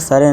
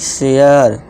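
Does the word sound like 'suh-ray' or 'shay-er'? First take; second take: suh-ray; shay-er. First: The word is said as 'sa-re'. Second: The word is said as 'she-yar'. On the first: The speaker calls it wrong. "सरे नहीं" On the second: The speaker calls it right.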